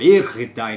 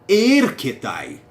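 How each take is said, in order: First: The middle consonant is an r-like sound. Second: The middle consonant is a hard k sound. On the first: This is the Erasmian school pronunciation. The speaker calls it wrong. "na sua pronúncia erasmiana" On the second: This is the reconstructed ancient pronunciation. The speaker calls it right. "A minha pronúncia é a reconstruída do grego verdadeiro"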